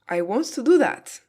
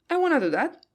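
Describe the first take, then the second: First: 'Want to' is said in full. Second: 'Want to' is reduced to 'wanna'. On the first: "Wants to becomes wanna" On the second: "becomes I wanna do that"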